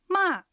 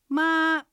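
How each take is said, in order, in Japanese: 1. 音は高いところから急に下がります。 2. 音は高いまま平らです。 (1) "びっくりするような下がる音です。" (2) "平板です。高く音を伸ばします。"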